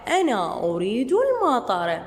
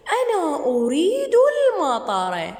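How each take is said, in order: First: Said in the usual way. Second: Put-on lightly higher, childlike voice for the boy; voicing the boy. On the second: Shown as a demonstration. Teacher voicing the boy who wants rain, lightly childlike. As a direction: speak as the boy in the story. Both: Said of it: "repeats lesson line".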